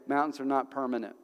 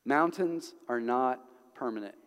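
First: Said in the usual way. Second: "Mountains are not permanent" slowed, with pauses between phrases. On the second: Real, not acted. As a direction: let "Mountains", "are not", "permanent" each land separately. Same words repeated slowly for emphasis.

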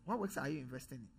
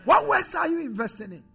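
First: Low, much softer, fast repeat of the question; hushed echo of the challenge; quiet repeat. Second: High, louder challenging question; preaching challenge. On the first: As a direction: drop it almost to an aside. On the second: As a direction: demand an answer from the pews. Repeated question to congregation. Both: Real, not acted.

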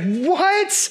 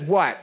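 First: "What?" thrown up high in shock; emphatic What. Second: Said in the usual way. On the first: Shown as a demonstration. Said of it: "There's some emphasis on this". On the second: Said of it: "There's an exclamation point".

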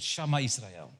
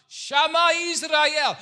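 First: Said in the usual way. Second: High, drawn-out shout. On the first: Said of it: "is called". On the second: Retold or imitated. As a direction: cry it out long, loud and high. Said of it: "he shouted".

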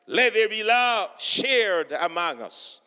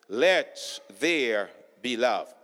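First: Said in the usual way. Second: Much lower, softer and slow; a slow, low echo of the line before. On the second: Shown as a demonstration. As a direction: drop it down low and let it hang.

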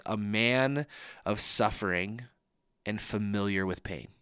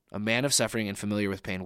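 First: Scripture read slowly, each word given weight; slow, weighty reading. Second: Faster, plain restatement of the phrase; quick plain repeat. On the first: Pastor quoting Isaiah to his congregation, slow and deliberate. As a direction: let the phrase sink in, unhurried. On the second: Pastor repeating the Isaiah line to listeners, quick and plain. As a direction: run through it again briskly. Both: Shown as a demonstration. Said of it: "the phrase that really stands out to me".

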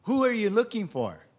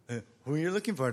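First: Loud, high, ringing demand; retold challenge, projected strongly; commanding question. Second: Quick, casual retelling; lightly imitated sheepish repeat; comic replay. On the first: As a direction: confront them boldly with full voice. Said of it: "Jesus asked them". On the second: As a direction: toss the question off fast, amused. Comic replay after they got up.

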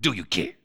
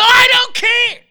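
First: Low, soft setup question; low mock-radio question; lower catchphrase voice. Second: High, loud drawn yell; mock radio host yell; imitating shock-jock catchphrase. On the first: Shown as a demonstration. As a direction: drop right down, quietly. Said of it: "a little lower voice with a series of catchphrases". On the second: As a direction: leap into a high catchphrase shout. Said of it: "And then he go".

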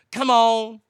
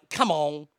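First: Louder, higher exasperated come on. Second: Said in the usual way. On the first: Real, not acted. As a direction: throw up your hands, come on.

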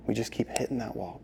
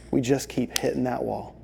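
First: Softer fading repeat; quieter echo. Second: Said in the usual way. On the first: Acted. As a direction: let it fall away. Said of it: "repeated softer". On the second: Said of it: "repeated line, second softer".

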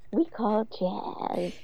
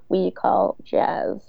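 First: Much softer, very slow mock drawl; mock voiceover. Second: Slow voiceover drawl. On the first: Mocking Carrie's voiceover with a lisp-like drawl. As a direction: drag out the words softly, mocking. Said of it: "you sound like you have a fucking speech impediment". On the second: Retold or imitated. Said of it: "Carrie's voiceover says".

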